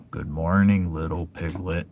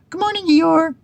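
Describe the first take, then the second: First: Gloomy Eeyore. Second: High, loud little Piglet call; Piglet shouting. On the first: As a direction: greet him as if nothing is worth it. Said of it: "said Eeyore". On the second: Piglet calls a greeting to Eeyore by the stream, high and loud. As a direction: call across to a friend, high and bright. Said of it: "shouted Piglet". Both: Acted.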